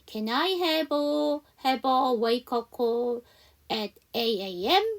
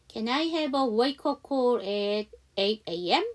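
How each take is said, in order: First: It is said slowly. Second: It is said at normal speed.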